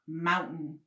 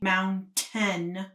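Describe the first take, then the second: First: The middle T sound is dropped. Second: The middle T sound is clearly pronounced. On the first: The speaker calls it wrong. "we don't pronounce our T's" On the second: The speaker calls it right. "I want you to understand that it's pronounced mountain"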